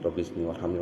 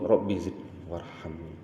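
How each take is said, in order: First: It is said quickly and hurriedly. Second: It is said slowly and deliberately. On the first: The person has become heedless after the problem ended. The speaker calls it wrong. "sudah mulai cepat lagi" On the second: The person feels in need of God and prays sincerely. The speaker calls it right. "Lebih lebih lebih dihayati"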